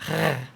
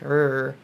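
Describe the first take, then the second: First: A throaty French-style R sound. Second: A smooth English-style R sound. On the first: "French R, which is like a R" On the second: "the normal English like R"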